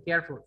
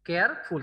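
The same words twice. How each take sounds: First: Said in the usual way. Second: কেয়ারফুল broken in two, কেয়ার then ফুল; split into syllables. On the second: Shown as a demonstration. Teacher counting syllables for students, কেয়ারফুল split in two. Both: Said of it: "তাহলে এখানে syllable কয়টা".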